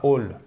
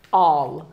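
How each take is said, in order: First: "all" said like "ole", with a closed o; wrong vowel. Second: "All" with a long, open aw; dropped-throat vowel. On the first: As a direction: round "all" into a French-like o. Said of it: "C'est pas all". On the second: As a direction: drop your throat on "All". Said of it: "You have to drop your throat". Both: Shown as a demonstration.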